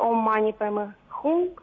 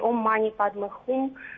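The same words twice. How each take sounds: First: The mantra is pronounced the Tibetan way. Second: The mantra is pronounced the Indian way. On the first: "как ее произносят тибетцы" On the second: "как ее произносят ближе к Индии"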